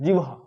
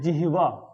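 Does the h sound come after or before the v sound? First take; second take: after; before. First: The h sound comes after the v sound. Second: The h sound comes before the v sound. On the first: The speaker calls it wrong. "जीवहा नहीं होता" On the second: The speaker calls it right. "जिहवा होता है"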